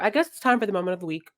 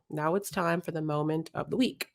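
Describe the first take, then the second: First: It is said fast. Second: It is said slowly.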